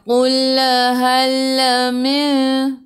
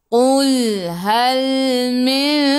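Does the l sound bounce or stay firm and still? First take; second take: bouncing; firm. First: The l sound bounces with a small echo. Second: The l sound is held firm without bouncing. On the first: The speaker calls it wrong. "Jangan baca melantun. Jangan qul hal min" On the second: The speaker calls it right. "Kena jelaskan betul-betul"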